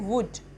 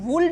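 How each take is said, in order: First: The L sound is left out. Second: The L sound is clearly pronounced. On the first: The speaker calls it right. "इसको हम बोलेंगे वुड" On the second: The speaker calls it wrong. "वुल्ड नहीं बोलेंगे इसको"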